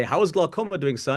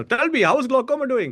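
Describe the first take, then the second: First: Said in the usual way. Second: Imitating his dad in an Indian accent, pitched much higher and louder; high, loud mock Indian accent of an old father; dad's Indian accent. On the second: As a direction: play the father asking in a thick Indian accent. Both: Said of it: "He'd actually say in the Indian accent".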